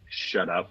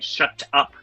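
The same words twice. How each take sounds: First: It is said in an American accent. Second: It is said in a British accent. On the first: "full on American accent" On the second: "British accenty"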